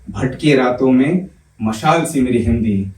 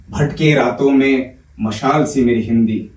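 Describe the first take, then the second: No difference in how they are said.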